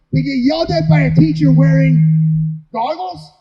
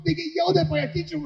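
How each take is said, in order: First: Louder and slow, hammering it; slow, booming, incensed; loud indignant repeat. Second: Said in the usual way. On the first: Real, not acted. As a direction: lean into it with outrage. Repeats line, then punches it.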